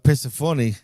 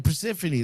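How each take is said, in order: First: It is said with a Greek pronunciation. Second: It is said with an English pronunciation. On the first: "I say it in the Greek way, like Persephone is how I would say it" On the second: "That's it"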